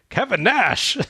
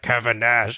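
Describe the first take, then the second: First: The name is said with sudden surprised discovery. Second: The name is said flatly, as already known. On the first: He has only just recognized the person. The speaker calls it right. "he's just realized" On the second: The person was already known to him. The speaker calls it wrong. "It's not like that. It's not like"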